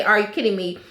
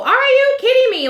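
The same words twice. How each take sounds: First: Said in the usual way. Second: Very high, louder Shannon impression; mocking Shannon's pet phrase, pitched way up and loud; Shannon's catchphrase. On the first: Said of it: "how many times did Shannon say". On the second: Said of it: "And then Shannon with the whole".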